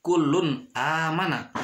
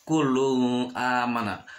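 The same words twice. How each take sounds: First: "Kulun amana" with a crisp unhummed n; "Kulun amana", n clearly cut before the a; clear idhar reading. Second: "kulun amana" with the n blurred into a hum; slow "kulun amana", n smeared nasally; wrong nasalized reading. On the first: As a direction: say the n of "Kulun" cleanly, then "amana". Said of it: "Harus jelas". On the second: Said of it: "Tapi tidak bisa dibaca". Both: Shown as a demonstration.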